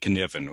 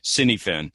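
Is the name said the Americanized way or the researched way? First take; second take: researched; Americanized. First: The name is said the researched, non-American way. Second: The name is said the Americanized way. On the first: The speaker calls it right. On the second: The speaker calls it wrong.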